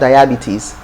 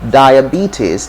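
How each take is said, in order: First: The stress falls away from the 'be' syllable. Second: The stress falls on the 'be' syllable. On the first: The speaker calls it wrong. "not diabetes" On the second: The speaker calls it right. "It's in the B that is stress"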